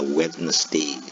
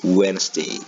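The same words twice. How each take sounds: First: The d is pronounced, giving three syllables. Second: The d is silent, giving two syllables. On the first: The speaker calls it wrong. "kita sering mengucapkan istilah Wednesday" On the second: The speaker calls it right. "pronunciation yang lebih ke native itu Wednesday. D-nya kadang-kadang nggak terlalu dibaca"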